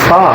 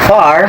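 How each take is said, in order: First: The final R sound is dropped. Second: The final R sound is pronounced.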